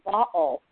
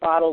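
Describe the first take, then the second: First: The middle consonant is a glottal stop. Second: The middle consonant is a quick tapped D. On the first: "the middle of the word bottle for her was what's called a glottal stop" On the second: "like a lot of Americans say bottle with this tap D in the middle"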